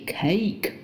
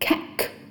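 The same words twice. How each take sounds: First: The vowel is the diphthong 'ay'. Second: The vowel is a short 'i' sound. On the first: The speaker calls it right. "那它的正确发音应该是cake" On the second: The speaker calls it wrong. "很多中国学生都会发成cake"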